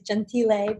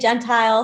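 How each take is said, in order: First: The name is said in an Italian way. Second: The name is said in an anglicized way. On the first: This is the original proper form of the name. "The Italian proper way is Gentile" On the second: This is how the name's owner says it. "I say Gentile"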